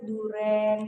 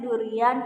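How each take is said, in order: First: The vowels merge into a single e sound. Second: The vowels i and a are both pronounced. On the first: The speaker calls it wrong. "kita malah seringnya sebut duren" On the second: The speaker calls it right. "harusnya durian"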